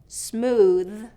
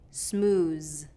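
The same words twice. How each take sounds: First: It ends with a voiced th sound. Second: It ends with a z sound. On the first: The speaker calls it right. "instead of smooth" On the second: The speaker calls it wrong. "I'm hearing smooth"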